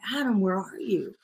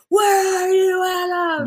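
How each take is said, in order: First: It is said in a calm, gentle tone. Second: It is said in an angry, raging tone.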